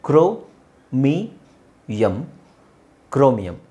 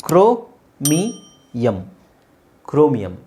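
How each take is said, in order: No difference in how they are said.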